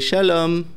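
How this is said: It is said with an Israeli accent. "an Israeli would say"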